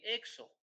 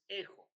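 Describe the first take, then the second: First: The middle consonant is a 'ks' sound. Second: The middle consonant is a throaty 'h' sound. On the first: The speaker calls it wrong. "estoy leyendo mal" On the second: The speaker calls it right. "su transliteración es J"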